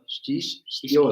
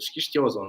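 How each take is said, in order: First: It is said slowly, split into two parts. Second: It is said quickly as one run-together word.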